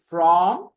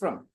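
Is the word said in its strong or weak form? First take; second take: strong; weak. First: The vowel is full and clearly pronounced. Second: The vowel is reduced to a short schwa. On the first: "the strong pronunciation" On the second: "and another is from"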